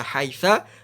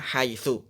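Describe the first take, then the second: First: The word ends with an a vowel. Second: The word ends with a u vowel. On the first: The speaker calls it wrong. "Nggak boleh" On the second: The speaker calls it right.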